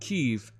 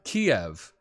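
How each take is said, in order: First: It is the Ukrainian pronunciation of the name. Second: It is the Russian pronunciation of the name. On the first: "Kiev is the Ukrainian pronunciation of their capital" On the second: "Kiev is the Russian pronunciation of the capital city"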